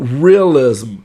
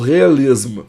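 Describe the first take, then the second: First: It sounds like native English pronunciation. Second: It sounds like Brazilian-accented pronunciation. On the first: "você falou realism" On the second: "eu falo realism"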